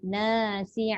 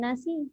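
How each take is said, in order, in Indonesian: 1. Vokal pertama diucapkan panjang. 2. Vokal pertama diucapkan pendek. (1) "Na tu panjang, ada alif" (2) "jangan nasi"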